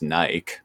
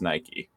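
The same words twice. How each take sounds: First: The word rhymes with bike. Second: The word does not rhyme with bike. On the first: This is how the spelling suggests reading it. The speaker calls it wrong. "would probably be pronounced Nike. Like, you know, Mike, bike" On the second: This is how the brand name is said. The speaker calls it right. "in that particular context of the brand name, it is Nike"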